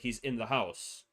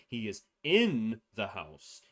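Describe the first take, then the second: First: The word 'in' is said without stress. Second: The word 'in' carries strong stress.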